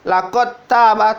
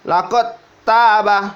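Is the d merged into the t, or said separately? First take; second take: merged; merged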